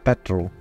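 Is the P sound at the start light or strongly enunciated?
light. The P at the start is light. This is the usual Scottish way of saying it. "most Scottish would say petrol"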